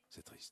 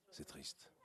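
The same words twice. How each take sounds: First: Barely audible, sad; faint sad whisper. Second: Sad near-whisper; whispered sadness. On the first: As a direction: let C'est triste fade to almost nothing. Repeated, fading away. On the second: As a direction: breathe it out, unvoiced and sad. Last days, thinking of family. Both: Acted.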